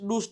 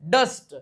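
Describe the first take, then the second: First: The vowel is an 'oo' sound. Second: The vowel is a short 'uh' sound. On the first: The speaker calls it wrong. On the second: The speaker calls it right.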